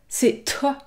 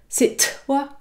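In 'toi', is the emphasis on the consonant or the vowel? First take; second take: consonant; consonant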